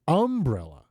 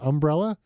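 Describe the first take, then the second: First: The stress is on the first syllable. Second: The stress is on the second syllable.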